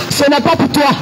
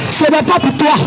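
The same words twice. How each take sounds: The two takes are said the same way.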